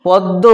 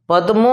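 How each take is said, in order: First: পদ্ম with the m lost into a doubled d; colloquial altered pronunciation. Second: Said in the usual way. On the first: Shown as a demonstration. Teacher showing students the altered form, পদ্ম said as "poddo". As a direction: say পদ্ম as "pod-do". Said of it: "একটু বিকৃত উচ্চারণ". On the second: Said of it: "বাঁ দিকের উচ্চারণগুলো হচ্ছে শুদ্ধ উচ্চারণ".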